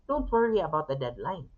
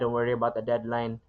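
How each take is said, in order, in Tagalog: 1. Mainit at suportado ang tunog nito. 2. Malamig at nananakot ang tunog nito. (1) "that line will be warm and supportive" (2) "that exact same line will be cold and threatening"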